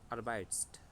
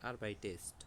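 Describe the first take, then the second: First: No vowel is heard before the final st. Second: An extra vowel is heard before the final st. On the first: The speaker calls it wrong. "আগে কিভাবে উচ্চারণ করতাম? ওটা একটু কষ্ট হইতো" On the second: The speaker calls it right. "সুন্দর না?"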